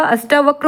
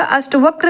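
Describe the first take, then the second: First: Said in the usual way. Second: अष्टवक्र with short a before va; wrong form. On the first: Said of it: "अष्टावक्र होगा". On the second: Shown as a demonstration. Teacher rejects a misspelling, अष्टवक्र with short middle vowel. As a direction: keep अष्ट short in अष्टवक्र. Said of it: "अष्टवक्र नहीं होगा".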